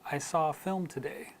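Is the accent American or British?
American. American accent, no R between saw and a. "In my American accent, there's no R"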